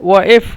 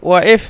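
The two takes are said the same way.

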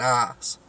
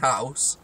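First: The h is dropped in a local accent. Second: The word starts with a clear h sound. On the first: "we're saying arse" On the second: "We don't say house"

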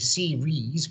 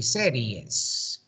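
First: The word is said with English pronunciation. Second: The word is said with Spanish pronunciation. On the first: "When you say series" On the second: "we say series. said them a bit with a Spanish accent"

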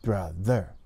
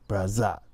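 First: The middle consonant is a soft th sound. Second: The middle consonant is a buzzing z sound. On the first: The speaker calls it right. "You stick your tongue out a little bit more" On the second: The speaker calls it wrong. "The tongue's not out too far, so it makes that Z sound"

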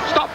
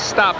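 First: It is said with an exaggerated put-on accent. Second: It is said plainly, without a put-on accent. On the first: It mimics how the referees actually say it. "Speak with an accent" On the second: This is how the word would normally be said. "they don't say stop"

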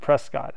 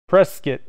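First: The last syllable sounds like cot. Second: The last syllable rhymes with biscuit's ending. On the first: This is how outsiders say it. The speaker calls it wrong. "Only tourists pronounce it" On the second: This is how locals say it. The speaker calls it right. "like biscuit"

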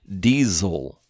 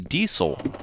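First: The middle consonant is a buzzing Z sound. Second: The middle consonant is a hissing S sound. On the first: "the S would have a Z sound. Diesel, like that" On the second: "I'm inclined to say diesel"

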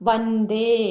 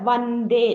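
The two takes are said the same way.

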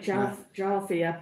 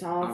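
First: The word begins with a J sound. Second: The word begins with a vowel sound. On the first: The speaker calls it wrong. "we'd say Jarvia" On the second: The speaker calls it right. "the J is silent"

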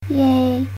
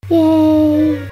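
First: The cheer is quiet and limp. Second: The cheer is very loud.

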